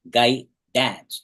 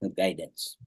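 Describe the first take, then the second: First: It is split into two words, guy and dance. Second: It is said smoothly as one ordinary word. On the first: The speaker calls it wrong. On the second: The speaker calls it right.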